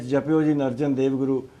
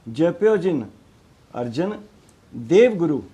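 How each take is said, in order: First: Arjan Dev is grouped together before the break. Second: Dev guru is grouped together after the break. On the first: Dev belongs to the name Arjan. The speaker calls it wrong. "वो असल च इहदा उच्चारण ही गलत है।" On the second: Dev belongs to the word Gurdev. The speaker calls it right. "देव जिहड़ा गुरु का हिस्सा है, गुरदेव है"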